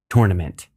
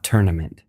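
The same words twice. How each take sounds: First: The first syllable sounds like the word 'tour'. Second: The first syllable does not sound like 'tour'. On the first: The speaker calls it right. "That's the way you're supposed to say it" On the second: The speaker calls it wrong. "It's not tournament"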